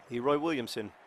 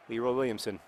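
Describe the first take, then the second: No difference in how they are said.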